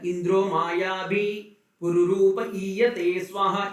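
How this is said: The phrase has a pause inside it.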